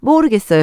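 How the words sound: It is said in a distinctive, youthful tone. "요즘 아이들 톤 아세요? ... 정확한 어투가 있습니다"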